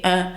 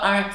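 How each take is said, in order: First: "un" corrected to the nasal vowel of France. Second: "un" with the Quebec nasal vowel, being rejected; Québécois vowel. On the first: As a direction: model "un" as in France, like "hein". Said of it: "c'est pas un, c'est un". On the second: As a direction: cite "un" the Quebec way. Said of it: "c'est pas un". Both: Retold or imitated.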